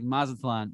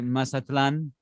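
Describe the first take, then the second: First: The name is said with an American accent. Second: The name is said with a Spanish accent. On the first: "very, very Americanized" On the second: "but she didn't say it like that"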